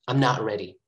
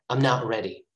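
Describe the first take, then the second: The two takes are said the same way.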